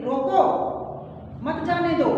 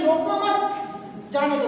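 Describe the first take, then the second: First: रोको left rising, a clear break, then मत जाने दो together; pause after रोको. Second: रोको मत as one unit, a break, then जाने दो; group मत with रोको, pause, then जाने दो; pause after मत. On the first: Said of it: "एक तो हम कहना चाहते हैं". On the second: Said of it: "अगर हम ये कहें". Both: Shown as a demonstration.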